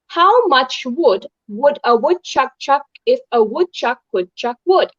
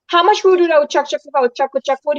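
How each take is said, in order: First: It is said slowly. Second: It is said fast.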